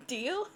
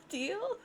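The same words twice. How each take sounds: First: Said in the usual way. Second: Deal? pitched much higher, rising; high rising question. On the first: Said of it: "repeats the deal offer". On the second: Shown as a demonstration. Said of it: "repeats the deal offer high".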